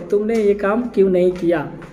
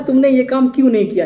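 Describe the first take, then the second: First: It is read out calmly, without anger. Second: It is said angrily and excitedly.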